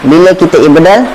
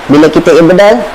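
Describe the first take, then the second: No difference in how they are said.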